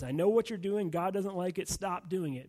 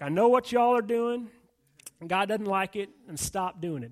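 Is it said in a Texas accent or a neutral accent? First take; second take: neutral; Texas. First: It is said in the speaker's own accent. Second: It is said in a Texas accent.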